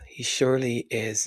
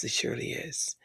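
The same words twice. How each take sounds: First: Said in the usual way. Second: A fond whisper to himself. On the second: Real, not acted. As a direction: whisper it, with no voice behind it. Whispered repeat.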